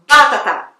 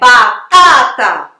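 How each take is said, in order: First: The stress is on the first syllable. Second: The stress is on the second syllable. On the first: The speaker calls it wrong. "ele tá dando o acento mais forte ali na primeira sílaba" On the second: The speaker calls it right. "Então é batata"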